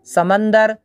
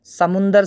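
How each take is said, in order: First: समंदर with a short "a" in the middle syllable; "समंदर" with "man", not "mun"; uncorrected pronunciation. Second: समुंदर with a short "u" in the middle syllable; "समुंदर" with "mun", not "man"; corrected pronunciation. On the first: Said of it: "समुंदर सही तलफ़ुज़ है". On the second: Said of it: "सही तलफ़ुज़ है". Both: Shown as a demonstration.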